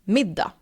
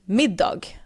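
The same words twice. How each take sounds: First: The final g sound is left out. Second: The final g sound is clearly pronounced. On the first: "I am skipping the G" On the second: "So you could pronounce it"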